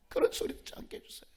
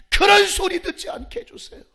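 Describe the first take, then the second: First: Fast whispered prayer; barely voiced, hurried supplication; hushed plea. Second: High, forceful prayer cry; urgent raised-voice petition; loud plea. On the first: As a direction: repeat the petition quickly under your breath. Same plea repeated under breath. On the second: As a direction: beg God at full voice. Prayer plea, then repeated hushed. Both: Real, not acted.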